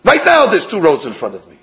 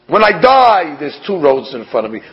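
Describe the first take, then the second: First: "right now" punched at the front, then falling away; emphatic "right now"; stress on RIGHT NOW. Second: Emphatic "die" at the front; stress on DIE. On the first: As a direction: hit "right now" hard, then ease off. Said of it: "It sounds like". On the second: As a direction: lean on "die", let the rest fall away. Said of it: "doesn't say over here about dying". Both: Shown as a demonstration.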